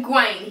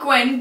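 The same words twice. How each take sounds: First: "Gawain" with a long ay, gwayn; correct name Gawain. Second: "Gwen" said as one short syllable with a short e; wrong name Gwen. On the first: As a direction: say "Gawain" to rhyme with rain. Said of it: "not Gwen, Gawain". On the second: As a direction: say "Gwen" to rhyme with ten. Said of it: "not Gwen". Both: Shown as a demonstration.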